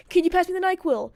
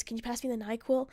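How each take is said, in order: First: Higher, louder retold demand; mock fed-up plea, pitched up; exasperated request. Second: Gentle bedside question, softer; soft request. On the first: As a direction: ask it insistently, out of patience. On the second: Retold or imitated. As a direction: ask softly, as if waking someone sleeping. Gently waking sleeping boyfriend.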